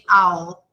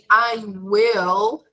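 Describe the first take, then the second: First: The words merge into one short syllable. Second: Both words are said fully and separately. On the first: "the contracted form of will" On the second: "instead of saying I will"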